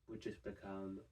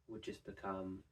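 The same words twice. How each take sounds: No difference in how they are said.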